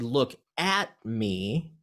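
The word 'at' is stressed. Don't look away from me. "if you accent the at, that has a different meaning than the first one"

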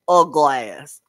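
It is said in a Memphis Southern accent.

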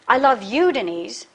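The stress falls on the word you. Denise, not another woman, is the one loved. "not that other woman"

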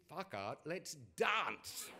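It is said in a posh English accent.

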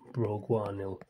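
The word begins with a B sound. It imitates speakers who do not use the P sound. "do not say the letter P, they say Bri, so it's broguanil"

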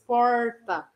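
The R is curled back, like English R. "Falar aquele R caipira que parece o R do inglês"

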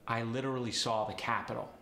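It is said in a relaxed American accent.

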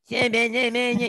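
The voice is thin and resonates only in the mouth. The speaker calls it wrong. "Itu suara mulut ya"

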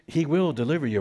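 It is said with a questioning, rising tune. The speaker doubts that rescue will come. The speaker calls it wrong. "did he say that with a question?"

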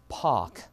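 The r sound is dropped. "영국에서는 R 발음 빼보세요"

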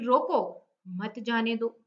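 There is a pause right after 'roko'. Stop the one who is leaving; do not let them go. "अगर आप रोको के बाद रुकेंगे"

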